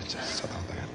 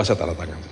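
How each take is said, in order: First: Whispered softly, breath only; hushed whisper repeat. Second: Said in the usual way. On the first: Shown as a demonstration. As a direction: say it under your breath.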